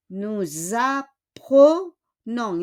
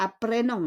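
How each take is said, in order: First: Teacher's slow model "Nous apprenons"; correct unaccented E. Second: Quick "apprenons" with E said as "ay"; brisk mistaken "apprenons", clear "ay" vowel in the middle; wrong accented E. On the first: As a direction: draw out each syllable of "Nous apprenons". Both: Shown as a demonstration. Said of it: "Hindi siya apprenons".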